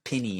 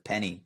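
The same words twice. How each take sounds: First: It is said in a Southern American way. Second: It is said in a non-Southern American way. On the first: "If you're from uh, like the South ... you might say something like" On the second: "instead of"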